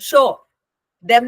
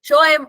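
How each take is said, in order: First: 'Them' is said in its full form. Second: 'Them' is reduced to a weak 'em'. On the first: "show ദം എന്ന് വരെ പറയാം" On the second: "വീക്കൻ ആയി പോയിട്ടുണ്ട്"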